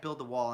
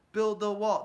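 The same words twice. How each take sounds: First: Said in the usual way. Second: A louder rally chant; mock chant. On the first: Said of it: "they don't chant". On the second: Republicans chanting at a rally, mock chant. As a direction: chant it like a crowd. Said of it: "There's a reason for that".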